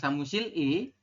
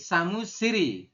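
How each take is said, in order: First: The final l is kept apart from i. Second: The final l runs into i as r. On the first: The speaker calls it wrong. "dibacanya bukan samusil i" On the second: The speaker calls it right. "tetapi samusiri seperti itu ya"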